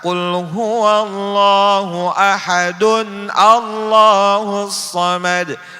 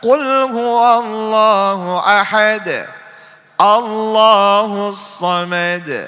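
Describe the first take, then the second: First: Joined as 'ahadun', then 'Allahus' without linking n. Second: A stop on ahad, then 'Allahus' without n. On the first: The speaker calls it wrong. "Itu juga salah" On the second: The speaker calls it right. "Yang benar"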